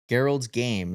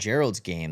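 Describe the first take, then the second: First: The name begins with a hard G sound. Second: The name begins with a soft J sound. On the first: The speaker calls it right. "It's in like a little uh, an alliteration" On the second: The speaker calls it wrong. "Not Gerald's game. That's not an alliteration"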